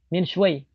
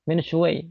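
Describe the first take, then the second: The two takes are said the same way.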